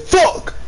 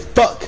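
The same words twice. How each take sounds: First: The word is said loudly, with great force. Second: The word is said flatly, with little force. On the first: "with so much vigor" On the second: "You don't say fuck"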